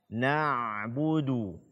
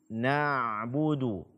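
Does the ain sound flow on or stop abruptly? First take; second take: flows on; flows on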